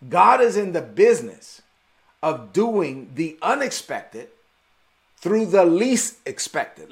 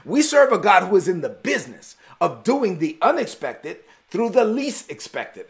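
First: "God is in the business of doing the unexpected through the least expected" slow, with pauses between phrases; preacher stating his first point, slow and weighty; slow emphatic statement. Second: Preacher repeating his point to the congregation, emphatic; restated point. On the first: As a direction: lay it down slowly, phrase by phrase. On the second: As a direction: say it again more fluidly, driving it home. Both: Shown as a demonstration. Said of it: "Let me say that again".

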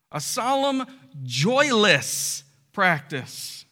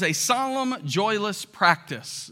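First: "joyless" drawn out very slowly and set apart; slow, weighty repeat stretching out "joyless"; stress on joyless. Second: Said in the usual way. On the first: Real, not acted. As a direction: dwell on "joyless", with pauses around it. Repeats phrase slowly for emphasis.

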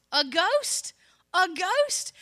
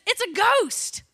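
First: High, loud, rising disbelief; incredulous question. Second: Loud, high mock cry of alarm; hammed-up startled shout, falling at the end; alarmed exclamation. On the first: Acted. Preacher questioning the disciples' first reaction, loud incredulous question. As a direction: question it twice, loudly, pitch leaping up at the end. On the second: Disciples seeing Jesus walk on water, mock alarmed shout. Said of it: "their first reaction is".

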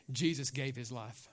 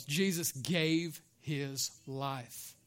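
First: Low, soft and grave; hushed statement. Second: GAVE, HIS and LIFE slowly spaced out, low; drawn-out emphasis. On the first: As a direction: say it low and softly. Line given to congregation to repeat. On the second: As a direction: stretch out each word of "Jesus gave his life", very slowly. Repeats it for congregation to echo. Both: Shown as a demonstration.

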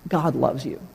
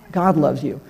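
First: God loves you, softer and lower, tender; tender whisper-soft. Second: Said in the usual way. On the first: Shown as a demonstration.

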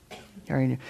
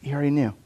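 First: Softer repeat. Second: Said in the usual way. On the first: Shown as a demonstration.

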